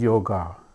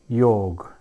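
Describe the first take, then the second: First: The word ends with an added a vowel. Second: The word ends on the consonant g. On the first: The speaker calls it wrong. "so bastardized in the entire world" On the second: The speaker calls it right. "my favorite example"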